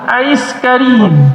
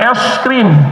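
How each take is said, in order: First: It is said as Arabic-style 'ais karim'. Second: It is said as plain Indonesian 'es krim'. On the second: "Kalau kita bilang es krim"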